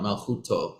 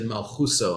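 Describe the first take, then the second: First: The final consonant is a t sound. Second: The final consonant is an s sound. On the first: This is the modern Israeli way of reading Hebrew. "not Malchuto" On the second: "Marvin said Malchuso"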